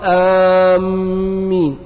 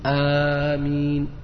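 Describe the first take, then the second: First: The m sound is doubled and held. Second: The m sound is single and light. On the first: It means those heading toward a place. The speaker calls it wrong. "لو شدد الميم غير المعنى" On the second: It means O God, answer the prayer. The speaker calls it right. "يقولها بالمد والتخفيف"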